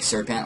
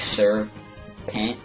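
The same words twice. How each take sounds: First: It is said smoothly as a single word. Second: It is said as two separate words. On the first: It is the ordinary word for a snake. The speaker calls it wrong. "like one word" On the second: It is a title followed by a surname. The speaker calls it right. "like he's like a Sir, and his last name is Pent"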